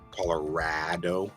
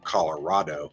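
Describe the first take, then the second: First: The A vowel is flattened out. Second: The A vowel is said higher. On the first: The speaker is from Colorado. "we flatten out that A" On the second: The speaker is not from Colorado. "with that higher A"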